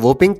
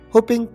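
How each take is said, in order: First: The word begins with a W sound. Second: The word begins with an H sound. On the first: The speaker calls it wrong. "आप इसे सरासर गलत pronounce कर रहे हैं" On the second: The speaker calls it right. "आप इसे होपिंग कफ पढ़ेंगे"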